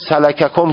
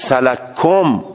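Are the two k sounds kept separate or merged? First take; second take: separate; merged. First: The two k sounds are pronounced separately. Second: The first k is merged into the second. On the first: "قرائت عربی سلککم که درسته" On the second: "یک حرف رو ادغام کردی در حرف دیگر"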